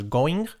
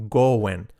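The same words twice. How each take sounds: First: GOING with a full "-ing" ending, rising; wrong pronunciation. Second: GOING with a reduced ending, "go-en"; model pronunciation. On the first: Teacher showing learners the mistake, wrong pronunciation. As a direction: say GOING "go-eeng", lifting the end. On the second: Teacher giving learners the model, correct pronunciation. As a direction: say GOING "go-en", dropping the G. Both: Shown as a demonstration. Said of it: "No es going".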